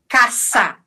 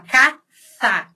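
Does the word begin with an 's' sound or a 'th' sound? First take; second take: s sound; th sound. First: The first consonant is a plain hissing s. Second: The first consonant is lisped with tongue between teeth. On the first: This is not how some regions of Spain say it. "não se fala caça" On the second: This is how some regions of Spain say it. "A língua é entre os dentes"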